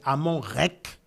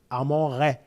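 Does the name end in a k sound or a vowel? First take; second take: k sound; vowel. First: The last word ends in a k sound. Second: The last word ends in a vowel. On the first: This is the form used today. "qui est la bonne prononciation" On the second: This is the form used in research. "dans la recherche, c'est le ré"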